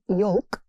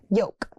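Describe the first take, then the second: First: The L sound is pronounced in the word. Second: The L sound is left out of the word. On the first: The speaker calls it wrong. "So it's not yolk" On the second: The speaker calls it right. "The L here is silent"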